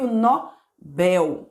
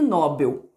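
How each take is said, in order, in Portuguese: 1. A sílaba tônica é a última. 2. A sílaba tônica é a primeira. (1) "a pronúncia correta é prêmio Nobel" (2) "não é prêmio Nobel"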